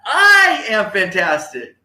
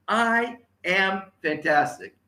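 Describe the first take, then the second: First: Huge high held I, then slow; loud rally cry. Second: Slow, higher, word by word; measured model phrase. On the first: Speaker leads the audience's final phrase, loud rally cry. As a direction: belt it like you mean it. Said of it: "Say it nice and loud". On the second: Speaker repeats phrase for audience to copy, slow and measured. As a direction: spell it out steadily for repeating. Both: Shown as a demonstration.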